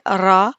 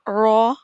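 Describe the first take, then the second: First: The r sound is light and thin. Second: The r sound is heavy and full. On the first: "रा बारीक" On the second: "रॉ पुर पढ़ा है"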